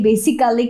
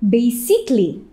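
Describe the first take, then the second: First: The ending is said in full, with four syllables. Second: The ending is reduced, giving three syllables. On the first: The speaker calls it wrong. "সবাই বলে থাকে বেসিক্যালি বেসিক্যালি" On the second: The speaker calls it right. "এটার উচ্চারণটা আসলে হবে বেসিকলি"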